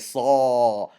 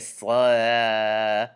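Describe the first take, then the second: First: The consonant and vowel sound thick and heavy. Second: The consonant and vowel sound thin and light. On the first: The speaker calls it right. "We say saw. The reason is because Saad is one of the heavy letters" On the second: The speaker calls it wrong. "We don't say saw"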